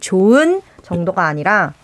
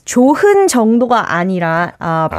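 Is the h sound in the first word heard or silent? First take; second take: silent; heard. First: The h sound in the first word is silent. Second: The h sound in the first word is heard. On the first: The speaker calls it right. "we don't really pronounce the heat below over here. So we just say" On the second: The speaker calls it wrong. "You pronounced it as 좋은 정도가 아니라"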